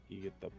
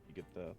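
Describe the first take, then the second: No difference in how they are said.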